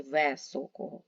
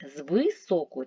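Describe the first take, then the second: First: "високого" said as "весокого", е in first syllable; unstressed vowel as е. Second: "високого" said with и in the first syllable; unstressed vowel as и. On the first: Teacher offering pupils the doubtful spelling, е sound in високого. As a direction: say високого with е in place of и. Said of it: "чи високого". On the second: Teacher offering pupils the first spelling choice, clear и in високого. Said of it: "змінивши ненаголошений". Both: Shown as a demonstration.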